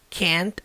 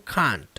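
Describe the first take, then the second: First: It is said without a British accent. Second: It is said with a British accent.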